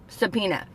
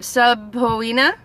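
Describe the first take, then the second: First: The second syllable sounds like 'pee'. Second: The second syllable sounds like 'poe'. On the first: "Why is the O silent?" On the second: "why it's not subpoena"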